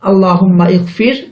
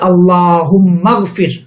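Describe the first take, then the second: First: The initial vowel of the second word is pronounced. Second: The two words link without the initial vowel. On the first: The speaker calls it wrong. "বলছি না" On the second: The speaker calls it right. "তখন উচ্চারণ করছি"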